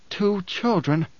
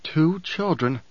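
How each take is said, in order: First: Wonderstruck. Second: Wondering. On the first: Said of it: "Paul marvels alone". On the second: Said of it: "Paul thought wonderingly". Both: A narrator's reading.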